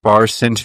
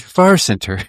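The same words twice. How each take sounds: First: Said in the usual way. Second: Echoing a friend's odd phrase, pitched higher; higher far center. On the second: Shown as a demonstration. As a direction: repeat it pitched up, mock serious.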